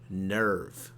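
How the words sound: It is said with an American-style er vowel. "we as Americans can pronounce nerve"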